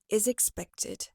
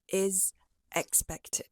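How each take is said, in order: First: The z sound links straight into the next word. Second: The two words are separated, not linked together. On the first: The speaker calls it right. "you can say" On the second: The speaker calls it wrong. "after you've completed the z sound of is, you've reshaped your mouth"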